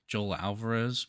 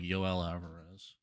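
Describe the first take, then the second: First: The name is pronounced in an English way. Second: The name is pronounced in a Spanish way. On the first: "I'm just gonna say Joel" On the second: "it's probably like Yoel Alvarez"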